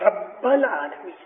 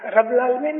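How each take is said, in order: First: The b sound is strongly stressed. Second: The b sound is weak and unstressed. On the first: The speaker calls it right. "بے کے اوپر سٹریس کرو" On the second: The speaker calls it wrong. "رب العالمین نہیں"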